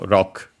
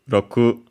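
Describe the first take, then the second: First: The final u vowel is barely heard. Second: The final u vowel is clearly pronounced.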